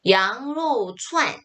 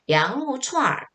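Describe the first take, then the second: First: The last syllable ends with a plain n sound. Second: The last syllable ends with an r-colored sound. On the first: The speaker calls it wrong. "이때도 양로 추안이라고 중국 사람들 그렇게 얘기 안 해요" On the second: The speaker calls it right. "여기다가 얼자를 붙이는데"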